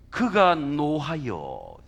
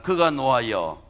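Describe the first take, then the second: First: 그가 노하여 said very slowly, each syllable weighed; 천천히 무게 있게 읽기; slow weighty reading. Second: 그가 노하여 said louder for the congregation to echo; 회중이 따라 하도록 크게; loud call to repeat. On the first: (그가 노하여를 아주 천천히 힘주어) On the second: (그가 노하여를 크고 힘차게) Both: Shown as a demonstration. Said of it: "여러분 한번 따라해서".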